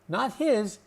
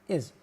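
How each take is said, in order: First: The word starts with a clear h sound. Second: The h sound is dropped, leaving 'is'. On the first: The speaker calls it wrong. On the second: The speaker calls it right. "With his is"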